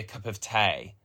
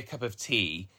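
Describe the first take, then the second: First: Tea is said with a regional 'ay' vowel. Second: Tea is said with a standard 'ee' vowel. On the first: This is how the grandparents' local accent says it. "they say a cup of tay" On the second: This is the ordinary way of saying it. "they don't say a cup of tea"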